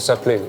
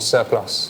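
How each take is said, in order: First: The word is pronounced the French way. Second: The word is pronounced the English way.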